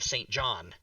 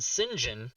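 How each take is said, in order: First: The name is said as two separate words. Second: The name is run together as 'Sinjin'. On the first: This is how it is read from the spelling. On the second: This is the British pronunciation.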